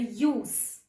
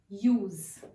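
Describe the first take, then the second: First: The word ends with a hissing s sound. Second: The word ends with a buzzing z sound. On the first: It is used as a noun. "the sound is s sound" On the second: It is used as a verb, an action. "it is pronounced with z, z sound"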